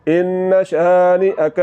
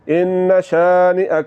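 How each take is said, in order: The two takes are said the same way.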